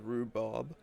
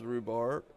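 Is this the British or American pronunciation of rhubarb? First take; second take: British; American. First: It is said with a British pronunciation. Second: It is said with an American pronunciation. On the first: "U K pronounces rhubarb" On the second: "U S is rhubarb"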